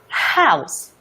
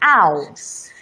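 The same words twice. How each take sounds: First: The word starts with a breathy h sound. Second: The word starts without an h sound. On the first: The speaker calls it right. "There's air there" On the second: The speaker calls it wrong. "You would realize that there is no air there"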